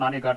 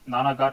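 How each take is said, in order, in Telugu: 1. రెండవ అక్షరాన్ని 'ne' అని అంటారు. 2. రెండవ అక్షరాన్ని 'na' అని అంటారు. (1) "ప్రొనౌన్సియేషన్ కింద నానేఘాట్ శాసనం అని కూడా అంటాం" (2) "నానాఘాట్ అన్న నానేఘాట్ అన్న ఒకటే"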